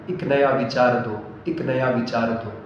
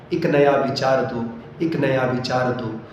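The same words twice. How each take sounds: Both takes have the same delivery.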